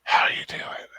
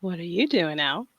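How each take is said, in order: First: Breathy, voiceless small talk; whisper. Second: Soft but voiced attempt; failed whisper. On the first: Modelling for co-host, whisper. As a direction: ask it entirely on breath. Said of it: "You gotta whisper". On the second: Copying the coach without success, failed whisper. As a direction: try whispering, let the voice leak in. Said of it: "so you can't whisper". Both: Shown as a demonstration.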